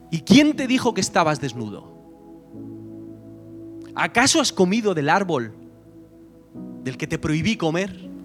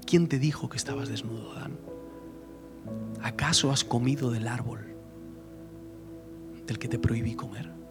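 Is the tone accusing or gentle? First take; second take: accusing; gentle. First: It sounds accusing, like seeking someone to blame. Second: It sounds gentle, like inviting a confession.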